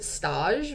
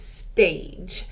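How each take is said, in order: First: The name is pronounced the French way. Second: The name is pronounced the English way. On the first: The speaker calls it wrong. "that's how you would say it in French" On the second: The speaker calls it right. "but it's not, it's Stage"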